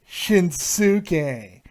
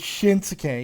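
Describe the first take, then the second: First: The middle u vowel is fully pronounced. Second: The middle u vowel is quickly dropped. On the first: The speaker calls it wrong. "It's not" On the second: The speaker calls it right. "You you say it quickly"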